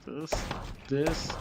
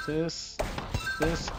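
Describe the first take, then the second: No difference in how they are said.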